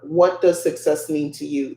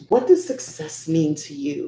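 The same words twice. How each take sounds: First: It is read in a plain, flat way. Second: It is said in a lively, engaging way.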